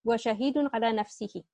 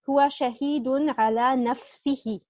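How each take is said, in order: First: هو شهيد على نفسه rattled off quickly in one breath; fast run-through. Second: هو شهيد على نفسه read slowly, word by word; slow careful reading. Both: Shown as a demonstration. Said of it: "our related to khabar is على نفسه".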